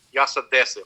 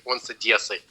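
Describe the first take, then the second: First: "Одессы" with a hard d, as locals say it; Odessan pronunciation. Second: "Одессы" with a softened d, like "ad-YES-sy"; mock an outsider's soft "dye" in "Одессы"; non-local pronunciation. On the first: Retold or imitated. Man in a joke saying where he's from, "Одессы" with hard Odessan d. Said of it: "how to say Odessa like an Odyssean". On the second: Joke's listener mocking an outsider, "Одессы" with soft dye sound. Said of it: "he doesn't even know how to say Odessa".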